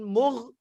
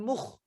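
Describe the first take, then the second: First: A gargled gh sound follows the vowel. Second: A rasping kh sound follows the vowel. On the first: "jangan mugh" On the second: "jangan mukh"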